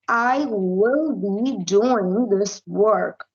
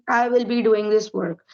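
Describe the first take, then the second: First: It is said slowly at a controlled pace. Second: It is said quickly in one continuous run.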